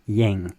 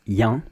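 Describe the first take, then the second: First: "yang" in southern French, ending in a nasal ng; southern French accent. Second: French "yang" without the southern twang; no southern French accent. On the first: Showing learners the sound with the southern accent, southern French. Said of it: "With the southern accent". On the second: Showing learners the French without the southern accent, standard accent. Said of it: "without the southern accent". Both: Shown as a demonstration.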